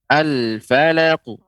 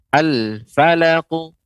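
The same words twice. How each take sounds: No difference in how they are said.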